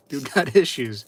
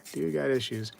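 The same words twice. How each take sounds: First: Laughing remark. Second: Said in the usual way. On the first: Real, not acted.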